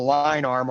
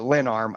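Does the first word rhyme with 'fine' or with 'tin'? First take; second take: fine; tin. First: The first word rhymes with 'fine'. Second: The first word rhymes with 'tin'. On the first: "I say line arm" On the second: "I don't know how you say it"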